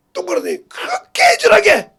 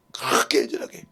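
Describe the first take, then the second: First: 그렇게 애절하게 cried out high and loud, falling at the end; tearful cry. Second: Whispered. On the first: Real, not acted. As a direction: wail 그렇게 애절하게 in tears. Same words earlier whispered. (그렇게 애절하게를 높고 크게 울부짖듯) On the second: Retold or imitated. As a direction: breathe 그렇게 애절하게 out in a hush, lower pitch. Same words later cried out. (그렇게 애절하게를 속삭이듯)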